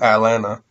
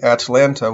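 First: The first T is a throat catch and the second T is dropped. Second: Both T sounds are clearly pronounced. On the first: "the second T is omitted, and the first T has a glottal" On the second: "Atlanta will become Atlanta"

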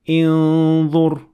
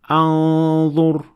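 First: The word begins with an i vowel. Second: The word begins with an a vowel. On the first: "put Kasr" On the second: "put Fatha"

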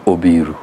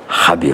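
First: The name begins with an o vowel. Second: The name begins with an h sound. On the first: This is how the Nyanza region says it. "In Nyanza we remove the K and A. We put an O" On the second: This is how the western region says it. "in Western is Habiru"

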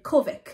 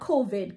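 First: The word ends with a k sound. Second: The word ends with a d sound. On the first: "COVID with a C at the end" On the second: "Not COVID"

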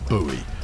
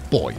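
First: The word is said in two syllables, like 'boo-ee'. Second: The word is said in one syllable, like 'boy'. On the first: The speaker calls it wrong. "you Americans insist on pronouncing things buoy. You're wrong" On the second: The speaker calls it right. "It's buoy. Yes, I know it's pronounced exactly the same way as the gender-based buoy"

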